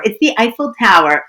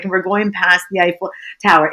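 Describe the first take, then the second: First: "the" stretched and leaned on in awe; stress on the. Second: Said in the usual way. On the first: Shown as a demonstration. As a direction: hit the word "the" as if it's THE Eiffel Tower. Repeats with emphasis on the.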